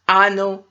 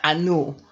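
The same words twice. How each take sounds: First: The stress is on the first syllable. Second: The stress is on the second syllable. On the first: The speaker calls it right. "the accent falls on the first letter, the first um, vowel" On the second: The speaker calls it wrong. "not Anu"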